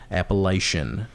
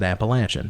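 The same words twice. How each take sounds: First: The middle syllable has no 'atch' sound. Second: The middle syllable has an 'atch' sound. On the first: The speaker calls it wrong. "not Appalachian" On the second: The speaker calls it right. "I said Appalachian ... It's atch"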